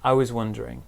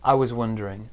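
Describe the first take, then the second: First: The word 'was' has a reduced weak vowel. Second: The same.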